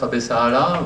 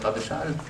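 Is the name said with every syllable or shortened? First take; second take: every syllable; shortened. First: The name is said with every syllable sounded. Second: The name is said shortened, the final syllables dropped.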